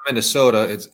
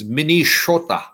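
First: The middle consonant is an 's' sound. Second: The middle consonant is an 'sh' sound. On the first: This is the usual English form of the name. The speaker calls it wrong. "it's not Minnesota" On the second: This is the original Lakota form of the name. The speaker calls it right. "it's my language, Lakota, which is Minishota"

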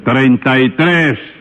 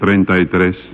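First: It is said very loudly. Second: It is said at a normal, quieter volume.

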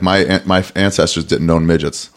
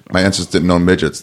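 First: There is a pause before the last word. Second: It runs on quickly with no pause before the last word. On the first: The listener gets time to take in the setup. The speaker calls it right. "There's a pause before you say midgets" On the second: The listener hears it as an obvious statement. The speaker calls it wrong. "if you talk too fast"

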